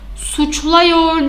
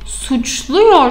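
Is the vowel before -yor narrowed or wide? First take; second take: wide; narrowed. First: The vowel before -yor stays wide, as a. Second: The vowel before -yor is narrowed to u. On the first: The speaker calls it wrong. "suçluyor değil" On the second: The speaker calls it right. "suçluyor şeklini almam gerekiyor"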